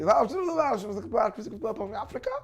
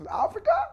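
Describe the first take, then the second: First: Mock American question. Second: Higher, exasperated mock American asking again; mock American repeat. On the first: American asks him at college. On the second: The American student repeating his question to the preacher, high impatient mock American.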